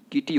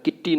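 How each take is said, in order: First: किटी with one light t, "ki-ti"; किटी as a light model word; correct pronunciation. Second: किट्टी with a heavy doubled t; किट्टी as "kit-tee"; wrong pronunciation. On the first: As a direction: say किटी without doubling the t. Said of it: "किटी होता है". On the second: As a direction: hold the tt in किट्टी. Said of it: "किट्टी नहीं होता है". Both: Shown as a demonstration.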